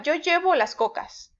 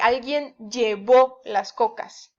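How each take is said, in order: First: Llevo stressed LLE-vo within the example; stress on first syllable. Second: Llevó stressed lle-VÓ within the example; stress on last syllable. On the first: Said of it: "si no le pongo acento". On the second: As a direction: lean on the final ó of llevó. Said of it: "si yo digo llevó". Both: Shown as a demonstration.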